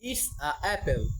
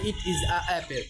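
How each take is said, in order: First: The words 'it is' are contracted to 'it's'. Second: The words 'it is' are said in full. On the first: "British ভাষা অনুযায়ী করি তাহলে হবে" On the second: "ইংল্যান্ডের আহ, ভাষা অনুযায়ী"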